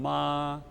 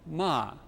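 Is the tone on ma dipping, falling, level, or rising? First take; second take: level; falling. First: The pitch stays high and level. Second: The pitch falls sharply from high to low. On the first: It means mother. "The level tone" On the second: It means a curse. "In the falling tone"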